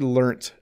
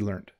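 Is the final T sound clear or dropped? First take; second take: clear; dropped. First: The final T sound is clearly pronounced. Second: The final T is dropped, sounding like learned. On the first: "I have to intentionally think about making a T sound at the end" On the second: "if I was speaking quickly"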